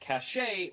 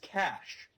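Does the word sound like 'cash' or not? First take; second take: not cash; like cash. First: The word does not sound like cash. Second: The word sounds like the word cash. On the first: The speaker calls it wrong. "some people mispronounce as cachet" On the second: The speaker calls it right. "it should be pronounced as cash, like the money"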